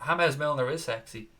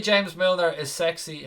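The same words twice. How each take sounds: First: Light Spanish touch, James said as "Hamez"; mildly put-on Spanish pronunciation of James; half-hearted Spanish accent. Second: Said in the usual way. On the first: Streamer obliging a viewer's request, half-hearted Spanish accent. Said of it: "in a Spanish voice". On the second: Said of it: "Can you say James Milner is sexy".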